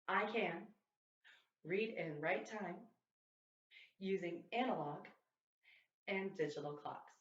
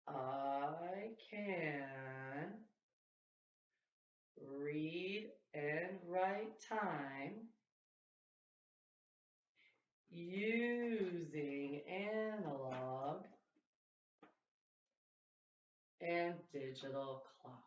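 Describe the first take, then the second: First: It is said at a fast speed. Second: It is said at a very slow speed.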